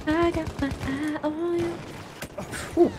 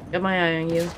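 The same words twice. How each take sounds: First: A lightly voiced higher, menacing tease; put-on voice. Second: Said in the usual way. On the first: Teasing a hidden enemy in a lightly put-on higher voice. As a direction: sing it out playfully to the enemy.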